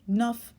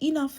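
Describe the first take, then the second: First: The first syllable is dropped, one syllable. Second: The word is said in full, two syllables. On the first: "Sometimes you just say enough" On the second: "You won't always say enough"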